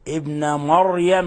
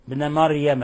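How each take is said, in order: First: The r sound is thick and heavy. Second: The r sound is thin and light. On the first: The speaker calls it right. "الراء مفتوحة فتفخم" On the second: The speaker calls it wrong. "بعض الناس يقرأ مريم ابن مريم، لا هذا خطأ"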